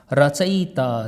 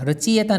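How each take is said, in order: First: रचयिता said carefully as ra-cha-yi-ta; रचयिता, each syllable clear and correct; correct pronunciation. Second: रचयिता said wrongly as rachiyeta; रचयिता with the wrong ye sound; wrong pronunciation. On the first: Teacher models the pure pronunciation for students. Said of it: "शुद्ध उच्चारण करना शुरू कर दो". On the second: Teacher demonstrates the common mistake to friends. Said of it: "रचयिता नहीं होता मित्रों". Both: Shown as a demonstration.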